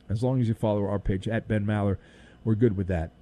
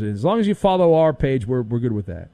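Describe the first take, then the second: First: Much softer, quicker repeat under the breath; host quietly restating the plug; soft aside. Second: Said in the usual way. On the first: Acted. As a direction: murmur it like a sly afterthought. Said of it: "repeat said much softer". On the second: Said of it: "first take of the plug".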